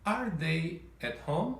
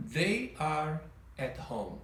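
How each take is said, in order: First: Slow question ending in a rise on home; slow rising question melody; question intonation. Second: Slow, falling statement tune; careful falling statement melody; statement intonation. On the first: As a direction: lift the end like a real question. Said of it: "com a entonação de pergunta". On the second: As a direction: say it flatly as a fact, slowly. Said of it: "Reparem a diferença. Na afirmação". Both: Shown as a demonstration.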